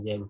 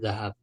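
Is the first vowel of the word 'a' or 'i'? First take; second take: i; a. First: The first vowel is an 'i' sound. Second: The first vowel is an 'a' sound. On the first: The speaker calls it wrong. "ini salah ya kalau dibaca zihab" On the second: The speaker calls it right. "yang benar itu zahab"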